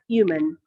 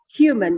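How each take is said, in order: First: The h at the start is silent. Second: The h at the start is pronounced. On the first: The speaker calls it wrong. "not human" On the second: The speaker calls it right. "human it's supposed to be not silent H. So we can we should say human"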